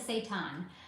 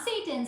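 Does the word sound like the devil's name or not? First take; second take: not; devil's name. First: It does not sound like the devil's name. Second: It sounds like the devil's name, Satan. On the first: The speaker calls it right. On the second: The speaker calls it wrong.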